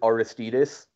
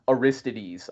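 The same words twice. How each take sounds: First: All of the vowels are short. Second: Some of the vowels are long. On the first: The speaker calls it right. "the Dutch guys they pronounce it Aristides, like all short vowels" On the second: The speaker calls it wrong. "the only one I'll get on you for"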